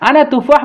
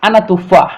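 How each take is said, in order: First: আনা তুফাহ repeated much higher, mocking the wrong phrase; raised repeat. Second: Said in the usual way. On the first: Shown as a demonstration. Teacher repeating a wrong Arabic phrase to students, higher and mocking. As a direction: lift আনা তুফাহ up high as if pointing out the error. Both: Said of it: "কিন্তু আমি বলবো".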